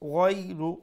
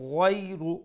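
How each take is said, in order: First: The first consonant is said soft and gentle. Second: The same.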